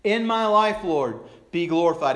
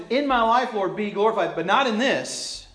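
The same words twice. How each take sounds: First: Raised, loud declaration; earnest worship line. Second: Half-hearted devotion. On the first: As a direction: offer it up like a worship lyric. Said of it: "And we sing that". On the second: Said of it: "in the back of our minds". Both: Acted.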